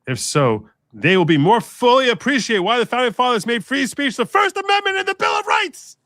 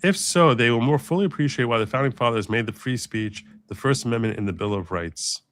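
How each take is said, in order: First: It is read with loud exclamatory emphasis. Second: It is read in a plain, flat way.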